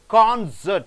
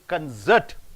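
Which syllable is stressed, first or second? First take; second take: first; second. First: The stress is on the first syllable. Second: The stress is on the second syllable. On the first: It is used as a noun. "you have to stress on concert" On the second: It is used as a verb. "cert should be stressed"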